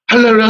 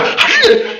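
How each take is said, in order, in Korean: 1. 음절이 느슨하게 이어지고 혀가 굴러갑니다. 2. 각 음절을 또박또박 따로 발음합니다. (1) "그냥 대충 하세요. 혀가 말려서 돌아가야 되니까 정확하게 발음 안 해도 돼요" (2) "아주 그냥 또박또박 하는데"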